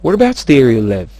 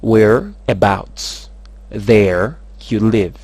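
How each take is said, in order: First: Rapid delivery. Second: Very slow, word by word; slow breakdown. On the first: Teacher models the question with rapidity, words run together. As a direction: run together quickly, loud, falling tune. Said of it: "tsy maintsy miaraka amin'ny rapidité foana". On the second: Teacher breaks the question down for learners, very slow. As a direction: break it into drawn-out pieces. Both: Shown as a demonstration.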